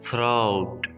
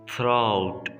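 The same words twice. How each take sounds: No difference in how they are said.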